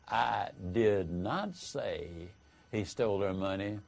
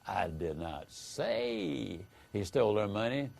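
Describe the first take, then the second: First: The stress falls on the word not. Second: The stress falls on the word say. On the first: It strongly denies that it was said. "is a vigorous denial that you said it" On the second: It was implied but not said. "hence that you might have implied it, but you didn't say it"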